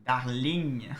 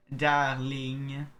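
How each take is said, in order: First: Darling said the French way, louder; French-accented darling. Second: Darling again with a French accent, louder; second French Darling. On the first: Reading a love letter aloud, French-accented Darling. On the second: Player repeating the word from the letter, French-accented. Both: Shown as a demonstration. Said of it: "quand les gens disent le mot darling".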